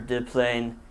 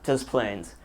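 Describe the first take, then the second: First: It is pronounced the French way. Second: It is pronounced the English way. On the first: "a corruption of the French words" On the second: "pronouncing it Des Plaines"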